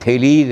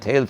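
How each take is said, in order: First: It is said as two syllables, with a long ending vowel. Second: It is said as one short syllable. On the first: The speaker calls it right. "ये थेलीज है" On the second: The speaker calls it wrong. "बहुत सारे लोग इसको थेल्स पढ़ देते हैं। थेल्स नहीं है"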